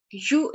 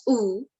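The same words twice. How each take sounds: First: Said in the usual way. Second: U said as a long "oo"; name U in German, "oo" with no y sound; German letter name. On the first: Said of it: "the pronunciation of German letter". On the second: Shown as a demonstration. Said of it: "U is pronounced as U".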